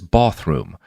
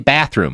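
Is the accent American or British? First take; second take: British; American. First: It is said with a British accent. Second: It is said with an American accent.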